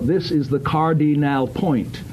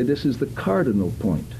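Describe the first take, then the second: First: Every syllable is exaggerated and over-precise. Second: The syllables are clear but sound natural. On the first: The speaker calls it wrong. "you don't need to be ludicrous and say" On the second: The speaker calls it right. "You can say this is the cardinal point. Now, that doesn't sound unnatural"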